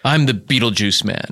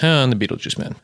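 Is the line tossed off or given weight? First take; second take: weighty; tossed off. First: The line is delivered slowly with heavy weight. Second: The line is tossed off lightly without weight.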